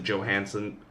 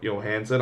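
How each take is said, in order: First: The name begins with a J sound. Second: The name begins with a Y sound. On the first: "I sometimes pronounce it Johansson" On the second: "the real pronunciation is actually Yo, Yo"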